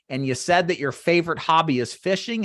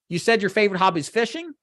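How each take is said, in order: First: The voice stays level like a statement. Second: The voice rises at the end like a question.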